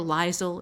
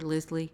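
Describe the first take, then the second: First: It has two syllables with a z sound. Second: It has two syllables ending in an ee sound. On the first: "everybody gets Lyle wrong" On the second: "everybody gets Lyle wrong"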